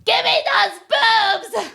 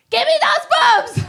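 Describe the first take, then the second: First: Put-on high, loud, slow greedy baby voice; high squeaky baby yell; baby's demand. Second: Much higher, loud squealing plea; very high mock-baby squeal; husband's demand. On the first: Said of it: "she's like". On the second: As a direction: squeal it like a greedy grown man. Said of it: "he's like".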